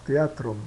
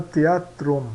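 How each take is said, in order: First: Said in the usual way. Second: "teatrum" slowly, te-a-trum, with plain T. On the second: Shown as a demonstration. Teacher demonstrating silent H after T, slowly articulated. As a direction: slowly sound out "teatrum" by syllables. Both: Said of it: "T H se pronuncia como T".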